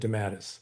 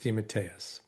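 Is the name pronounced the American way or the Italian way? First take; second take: American; Italian. First: The name is said in a squashed Americanized form. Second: The name is said with its full Italian pronunciation. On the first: This is the form the family adopted in America. "it got squashed into" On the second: This is the family's original pronunciation. "the real authentic Italian pronunciation"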